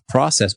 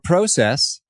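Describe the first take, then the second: First: The first vowel is a short O sound. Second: The first vowel is a long O sound.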